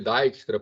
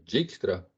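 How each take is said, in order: First: The name is said with an English-style vowel. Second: The name is said with Portuguese-style sounds. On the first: "Tem gente que chama de Dijkstra porque o, em inglês o item som de I" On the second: "ou falam em aportuguesamento"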